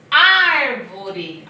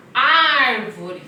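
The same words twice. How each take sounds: First: "Árvore" loud with a wide open Á. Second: "Árvore" loud with a big open Á. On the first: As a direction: open the mouth big on "Árvore". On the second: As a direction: make a big mouth on "Árvore". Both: Shown as a demonstration. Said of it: "Fiz bocão".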